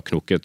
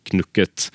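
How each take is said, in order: First: "knukket" said with an o, as knokket; o-pronunciation. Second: "knukket" said with a u, as spelt; u-pronunciation. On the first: Guest cites the other variant, o-sound in "knukket". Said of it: "kan si knukket eller knukket". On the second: Guest cites what people believe one can say, u-sound in "knukket". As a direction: say "knukket" with u, not o. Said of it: "tror at man kan si". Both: Shown as a demonstration.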